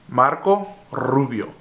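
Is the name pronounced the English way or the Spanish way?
Spanish. The name is pronounced with Spanish sounds. The speaker calls it right. "Say it with me"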